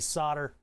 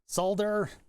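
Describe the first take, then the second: First: It is said in an American way. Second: It is said in a non-American way. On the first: The speaker calls it right. "I gotta say solder. I'm an American" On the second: The speaker calls it wrong. "I can't say it like that"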